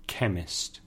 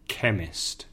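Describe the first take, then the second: The two takes are said the same way.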